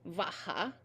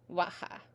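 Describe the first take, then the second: First: It begins with a hard v sound. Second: It begins with a soft, w-like sound. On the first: "some people in will pronounce it with a much harder V" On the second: "It's like a very, very, very soft B"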